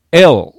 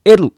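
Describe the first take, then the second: First: L as English "el", no vowel after it; emphatic L ending on a dark l. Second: L as "eru", with a tapped r and final u; Japanese katakana L. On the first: Teacher modelling the letter, L in English pronunciation. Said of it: "Lと発音する人がいますが". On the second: Teacher imitating learners' mistake, L said as "eru". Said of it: "これも間違いですね". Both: Shown as a demonstration.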